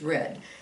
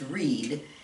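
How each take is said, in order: First: It is pronounced as the past-tense form. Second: It is pronounced as the present-tense form. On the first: The action already happened. "if it's past tense, it's read" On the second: The action happens now or habitually. "if it's a present tense, it's read"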